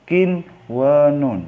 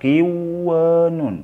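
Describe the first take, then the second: First: The n sound is pronounced clearly before w. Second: The n sound is merged away before w. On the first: The speaker calls it right. "tetap bacanya jelas" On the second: The speaker calls it wrong. "Jangan dibaca"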